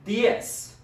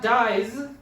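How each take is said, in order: First: The word ends with a hissing s sound. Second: The word ends with a buzzing z sound. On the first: The speaker calls it right. "The Z is not making the Z sound, it's making kind of an S sound" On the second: The speaker calls it wrong. "So it's not dies"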